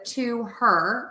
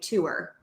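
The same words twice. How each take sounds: First: The H in her is clearly pronounced. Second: The H in her is dropped entirely. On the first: "Instead of to her" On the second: "I would say to her, to her. So I wouldn't say the H there"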